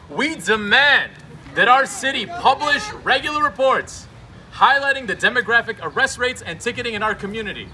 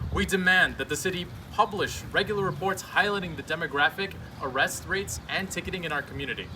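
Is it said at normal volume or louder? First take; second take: louder; normal. First: It is said more loudly. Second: It is said at normal volume.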